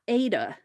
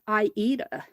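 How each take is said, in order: First: The word is said with two syllables. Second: The word is said with three syllables. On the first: The speaker calls it wrong. "it's not" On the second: The speaker calls it right. "it is"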